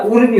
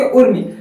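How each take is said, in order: First: उर्मी with a long opening "oo". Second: उर्मी with a quick, short opening u. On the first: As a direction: hold the first vowel of उर्मी. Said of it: "मतलब कि बड़ा हुआ आता है". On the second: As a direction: clip the first vowel of उर्मी to short "u". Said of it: "fast बोलते हैं कि उर्मी". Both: Shown as a demonstration.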